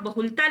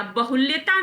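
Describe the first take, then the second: First: बहुलता with plain "l-taa"; no y glide in बहुलता; "ba-hul-taa" for बहुलता; correct form. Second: बहुल्यता with "lya" before "taa"; "ba-hul-ya-taa" for बहुल्यता; wrong blended form. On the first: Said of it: "या तो आप बहुलता लिखे". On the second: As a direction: put a y glide in बहुल्यता. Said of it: "बहुल्यता नहीं होता". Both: Shown as a demonstration.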